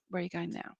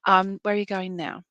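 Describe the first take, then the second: First: Softer, under the breath; quiet repeat. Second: Said in the usual way. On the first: Real, not acted. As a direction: ask it again, almost to herself. Repeats question, much quieter.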